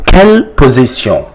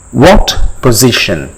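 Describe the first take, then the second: First: "Quelle position" as kel po-zee-syon; French pronunciation. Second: Said in the usual way. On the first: Shown as a demonstration. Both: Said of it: "how do you say".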